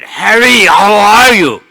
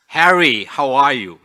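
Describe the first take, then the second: First: It is said as loudly as possible. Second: It is said at normal speaking volume.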